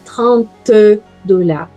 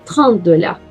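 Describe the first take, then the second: First: The final t of trente is clearly pronounced. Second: The final t of trente is barely heard. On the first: The speaker calls it wrong. "Não é trinta dollars" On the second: The speaker calls it right. "Quase vocês não vão escutar o som do T"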